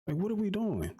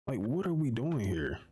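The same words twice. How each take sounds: First: Much higher, incredulous outburst; can't believe this list; exasperated. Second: Said in the usual way. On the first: Real, not acted. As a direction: pitch jumps up in outraged disbelief. Exasperated rant about the list.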